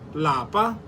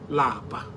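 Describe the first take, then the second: First: The word is said on a high tone. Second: The word is said on a low tone. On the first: It means home. "In higher tone" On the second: It means to be tired. "Lower tone"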